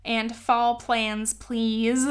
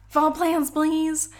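First: Said in the usual way. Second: High, loud whiny repeat; mock whiny request. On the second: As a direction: whine it like a pestering fan. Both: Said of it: "a couple people ... have said".

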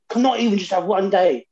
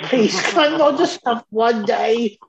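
First: Mildly imitated exasperated mum, a bit higher; aggressive mum retelling. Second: High, slow mock plea; imitated begging mum. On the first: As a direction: lightly play a mum snapping at her kids. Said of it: "quite aggressive when she first said it". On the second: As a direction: play a worn-down mum pleading with a laugh. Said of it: "it was like she was begging us".

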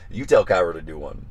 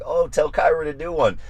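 First: Said in the usual way. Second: High-pitched mock request; imitating viewers. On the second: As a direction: mimic eager followers in a raised pitch. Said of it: "you guys who are like".

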